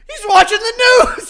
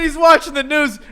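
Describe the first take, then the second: First: High, loud mock holler; laughing, exaggerated shouted imitation; imitated scream. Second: Said in the usual way. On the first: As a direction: yell it like an overexcited fan. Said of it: "and Frankie screams".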